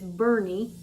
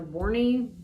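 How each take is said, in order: First: Two syllables, the first with a vowel like 'burn'. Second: Two syllables, the first with a vowel like 'born'. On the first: The speaker calls it right. "but it's Bernie is how you pronounce it" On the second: The speaker calls it wrong. "or Borney"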